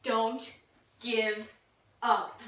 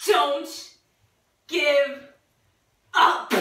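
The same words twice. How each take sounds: First: Low, soft, word-by-word urging; subdued. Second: Firmer, word-by-word urging with long pauses; emphatic. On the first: Player trying to make Jane laugh, low and halting. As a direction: say each word low with a long pause after. First take in laughing game. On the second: Player trying to make Jane laugh, emphatic and halting. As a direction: push out each word separately. Repeats it more forcefully. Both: Pretend.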